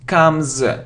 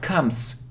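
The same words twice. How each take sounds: First: The word ends with a buzzing z sound. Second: The word ends with a hissing s sound. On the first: The speaker calls it right. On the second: The speaker calls it wrong.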